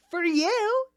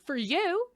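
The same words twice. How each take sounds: First: Very high, loud rising jab; mock-outraged comeback, loud and squeaky-high; indignant retort. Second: High, rising jab at the actor; mock-indignant comeback, pitched up; pointed retort. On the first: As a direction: hammer the correction home at full pitch. Acted retort, repeated harder. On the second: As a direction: throw it back as a pointed correction. Acted retort to actor's cost claim.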